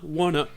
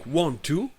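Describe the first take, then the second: First: Want to is reduced to wanna. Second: Want to is said in full.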